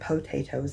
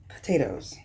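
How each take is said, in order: First: It is said in a non-New York regional accent. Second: It is said in a New York accent. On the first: "They don't say it the way I say it either. They don't say potatoes" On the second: "They say potatoes"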